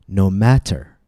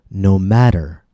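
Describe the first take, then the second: No difference in how they are said.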